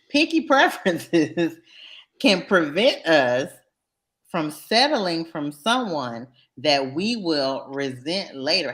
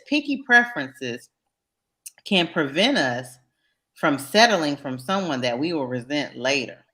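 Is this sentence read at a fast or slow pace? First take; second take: slow; fast. First: The sentence is read slowly and deliberately. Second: The sentence is read at a normal pace.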